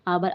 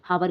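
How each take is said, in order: First: The word starts with a vowel, no h. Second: The word starts with an audible h sound. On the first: The speaker calls it right. "एच silent है, एच हम नहीं पढ़ेंगे" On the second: The speaker calls it wrong. "हावर गलत हो जाएगा क्योंकि इसमें एच silent है"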